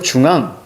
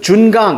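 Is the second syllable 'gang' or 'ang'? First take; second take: ang; gang. First: The syllables split as jung and ang. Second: The syllables split as jun and gang. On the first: This reading is the one the hyphen marks. "그래서 중앙, 이렇게" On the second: This reading is the one that can cause confusion. "이렇게도 읽을 수 있잖아요"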